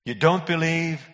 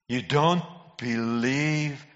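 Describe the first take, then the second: First: Higher-pitched disbelieving question; incredulous. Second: Drawn right out, word by word; slow incredulity. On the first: Preacher challenging born-again Christians, incredulous. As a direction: ask it as if you can't credit it. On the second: Preacher repeating it to born-again Christians, slowly incredulous. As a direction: stretch each word in disbelief. Repeated much slower for disbelief. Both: Real, not acted.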